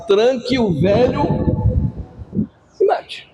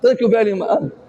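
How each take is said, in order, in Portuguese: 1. A frase é dita em ritmo normal. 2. A frase é dita rápido, as palavras se juntam.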